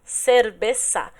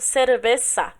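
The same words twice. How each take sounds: Both takes have the same delivery.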